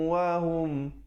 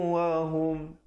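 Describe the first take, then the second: Both takes have the same delivery.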